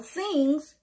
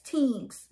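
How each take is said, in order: First: The word begins with a th sound. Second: The word begins with a plain t sound.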